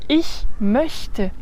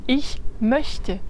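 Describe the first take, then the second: The two takes are said the same way.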